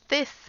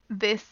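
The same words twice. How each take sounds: First: The th is voiceless, with only air. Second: The th is voiced, with the throat vibrating. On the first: The speaker calls it wrong. "you don't say th, this" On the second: The speaker calls it right. "It's the, this"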